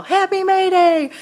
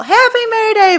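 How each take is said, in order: First: High, drawn-out singsong call; children's yell. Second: Loud, very high happy holler; yelling back. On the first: Kids on a May Day walk calling at her door, singsong yell. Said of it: "and they yell". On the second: Mother yelling back to the kids from her open door, high yell. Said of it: "I yell". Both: Retold or imitated.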